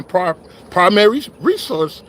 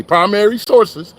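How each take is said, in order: First: Said in the usual way. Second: "primary sources" said slowly and deliberately as a correction; slow down and set "primary sources" right; fixing his own slip, he says "primary sources" with care; careful correction. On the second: Real, not acted. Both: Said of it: "I mean, excuse me".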